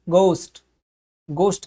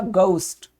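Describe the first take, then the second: First: गोस्ट in an American accent with a plain o; American गोस्ट, open o and hard g. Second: गोस्ट in a British accent with an ou glide; British गोस्ट, the o gliding to ou. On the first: Teacher demonstrating the American गोस्ट. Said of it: "American ... हम बोलेंगे". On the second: Teacher demonstrating the British गोस्ट. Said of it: "British English में इसको बोला जाएगा". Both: Shown as a demonstration.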